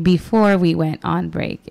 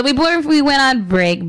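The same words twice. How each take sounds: First: Slow, deliberate restatement. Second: Hurried radio host delivery; rushed. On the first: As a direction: take it slowly, word by word. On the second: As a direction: rattle it off a little fast. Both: Real, not acted. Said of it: "I know I can talk a little fast".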